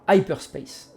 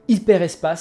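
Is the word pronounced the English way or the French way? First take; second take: English; French. First: The word is pronounced with an English sound. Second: The word is pronounced with a French sound. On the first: It keeps the original pronunciation. "si on voulait vraiment coller à la prononciation euh, originale" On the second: It is fully adapted to French. "si on veut vraiment être à la française pure et dure"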